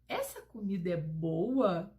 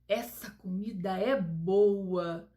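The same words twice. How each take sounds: First: It is said as a question. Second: It is said as an admiring exclamation. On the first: The speaker asks whether the food is good. "a leitura já é com outro tom. ... Porque aí é uma frase interrogativa" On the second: The speaker is delighted with the food's taste. "É uma frase exclamativa, porque a gente está dando admiração"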